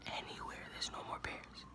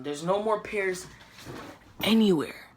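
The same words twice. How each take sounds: First: Breathy whisper, much softer. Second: Said in the usual way. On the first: Real, not acted. Echoing the sold-out news in a whisper. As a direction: whisper it like it's a tragedy. Repeats it in despair.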